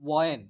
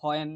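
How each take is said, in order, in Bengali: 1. শব্দটি শুরু হয় একটি সাধারণ w ধ্বনি দিয়ে। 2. শব্দটি শুরু হয় একটি শ্বাসযুক্ত h ধ্বনি দিয়ে। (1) "প্রনাউন্সিয়েশন উইল বি ওয়েন" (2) "এটা কিন্তু হয়েন না"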